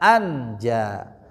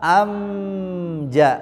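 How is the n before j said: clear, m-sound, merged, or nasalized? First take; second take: clear; m-sound. First: The n is pronounced clearly before the j. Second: The n turns into an m sound before j. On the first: "Kalau izhar bunyinya anja" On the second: "Kalau iqlab amja. Nah, dirubah ke mim"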